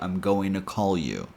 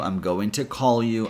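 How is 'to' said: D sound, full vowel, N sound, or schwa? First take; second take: N sound; schwa. First: The t is dropped, blending into an n sound. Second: The vowel in to is a weak schwa.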